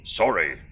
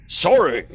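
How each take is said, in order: First: Said in the usual way. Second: Loud, high outraged repeat; indignant shout. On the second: Acted. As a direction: bellow it back in disbelief. NPC repeats word, louder and higher.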